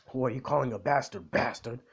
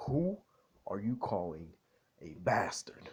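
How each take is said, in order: First: Mildly indignant retold comeback, run together; triggered. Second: Put-on British accent. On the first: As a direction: throw the insult back, mock offended. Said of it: "like, triggered". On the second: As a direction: pause between phrases in a mock British accent. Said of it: "British accent for a bit".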